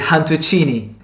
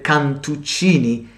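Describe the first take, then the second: First: The word begins with a breathy H sound. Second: The word begins with a hard K sound.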